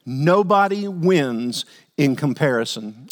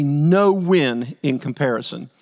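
First: Nobody stretched and punched; slow stress on nobody. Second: No drawn out slowly and stressed. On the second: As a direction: lean hard on no. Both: Shown as a demonstration. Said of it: "let's get that into our hearts".

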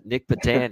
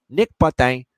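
First: Said in the usual way. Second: Name punched in a mock French accent, higher and louder. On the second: Shown as a demonstration. Host showing off a player's name to viewers, mock French accent. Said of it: "as I like to say it with the French accent".

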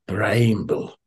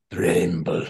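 First: Bramble tried in a hesitant Scottish accent, vowel as "braymble"; a quick, unsure stab at saying Bramble the Scottish way; tentative Scottish accent. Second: Said in the usual way. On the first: Shown as a demonstration. Host tries the old Scottish label name aloud, unsure Scottish accent. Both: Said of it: "Don't know how you say it with a Scottish accent".

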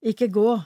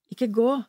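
First: Urgent plea, rising at the end on gå; pleading. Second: Repeated plea, rising on gå; pleading. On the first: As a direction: call after her, begging her to stay. Friend runs after, pleading. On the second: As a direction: beg again, gently insisting. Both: Acted.

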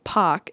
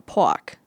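First: "Pock" with the R dropped, open ah vowel; Boston "Pock". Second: "pock" with a rounded aw-w glide for the R; New York "pock". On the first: Vlogger contrasting two accents, Boston-style "Pock" without the R. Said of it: "is Boston". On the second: Vlogger contrasting two accents, New York-style "pock" with aw. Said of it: "is more New York". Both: Shown as a demonstration.

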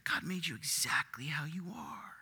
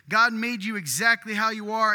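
First: Whispered, hushed and breathless; sly whispered lie. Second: Louder and higher, proclaiming "God" boldly; booming slogan voice; loud proclamation. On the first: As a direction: breathe the line like a seductive secret. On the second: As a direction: announce it like a bold slogan. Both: Shown as a demonstration. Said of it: "I'll say it again".

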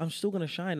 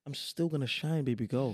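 First: Higher, louder, triumphant; excited defiant. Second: Cocky, a bit louder; sassy defiant. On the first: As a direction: really belt out the brag. Repeats the boast, higher. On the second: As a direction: brag it sassily. Defiant boast to haters. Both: Acted.

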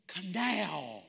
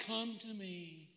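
First: Firm, no-nonsense summons; firm command. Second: Very soft, slow, airy coaxing; butterfly-gentle invitation. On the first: Preacher replacing the gentle reading, firm command. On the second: Preacher mocking a timid reading, soft and slow. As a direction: coo it as a delicate plea. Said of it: "we've got to take this little butterfly". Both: Acted.

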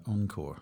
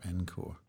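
First: "Encore" said as "ON-core"; French-style "Encore", starting "on"; pronounced ON-core. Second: "Encore" said as "EN-core"; anglicised "Encore", starting like "men" without the m; pronounced EN-core. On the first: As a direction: open "Encore" with an "on" sound. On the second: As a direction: open "Encore" with an "en" sound. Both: Shown as a demonstration. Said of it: "that's how we pronounce it".

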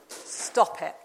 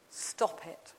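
First: Gentle voice of Jesus. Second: Softer echo. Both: Retold or imitated. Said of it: "then Jesus says to you this".

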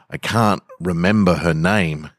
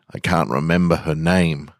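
No difference in how they are said.

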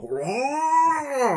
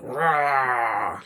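First: Huge high roar, hammed up; huge fiery dragon roar. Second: A more modest bear roar; huge fiery dragon roar. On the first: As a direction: belt out a big beast roar. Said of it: "they probably don't sound like that". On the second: Acted. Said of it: "That sounds terrible".

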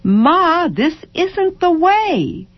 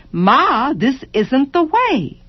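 First: Put-on much higher, slow whiny child; child whining to mother; child's complaint. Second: Put-on higher whiny child; child whining to mother; child's complaint. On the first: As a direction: drag it out like a tired child. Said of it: "child complaining". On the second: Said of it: "child complaining again". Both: A narrator's reading.

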